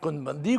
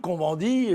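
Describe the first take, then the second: First: The name is pronounced the non-French way. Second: The name is pronounced the French way.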